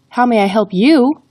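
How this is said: The word you carries the emphasis. "the emphasis is on the word you"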